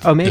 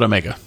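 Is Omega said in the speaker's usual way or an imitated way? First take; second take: imitated; usual. First: The word is said in an imitated actor's pronunciation. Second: The word is said in the speaker's usual pronunciation. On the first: "As Daniel Craig says it" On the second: "How about Omega?"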